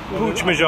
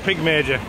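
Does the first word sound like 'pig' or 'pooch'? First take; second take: pooch; pig. First: The first word sounds like 'pooch'. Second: The first word sounds like 'pig'. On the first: The speaker calls it right. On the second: The speaker calls it wrong. "Or Pig Major"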